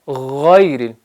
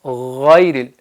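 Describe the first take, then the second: Both takes have the same delivery.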